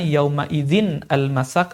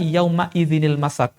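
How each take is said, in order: First: The nun is not linked into the next word. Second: The nun sound links smoothly into the next word. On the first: The speaker calls it wrong. "Jadi bukan" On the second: The speaker calls it right. "cara membaca yang benar adalah"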